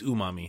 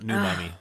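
First: The word begins with an oo sound. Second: The word begins with a noo sound. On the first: The speaker calls it right. "it's umami" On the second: The speaker calls it wrong. "not new mommy"

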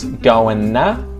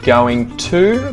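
First: The words blend into a reduced form. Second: Both words are said fully and separately.

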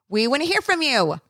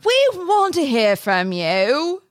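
First: It is said in the speaker's normal voice. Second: It is said in a put-on Moira voice.

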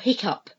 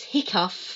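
First: The word ends with a p sound. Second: The word ends with an f sound. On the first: "or with a p" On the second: "which we can say either uff"

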